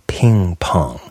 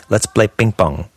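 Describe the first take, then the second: First: PING PONG with a puff after each P. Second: PING PONG with unaspirated Ps, near "bing bong"; don't puff either P in ping pong; Spanish-style unpuffed P. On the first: Shown as a demonstration. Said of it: "You puff the P". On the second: Retold or imitated. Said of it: "someone who comes to English from Spanish".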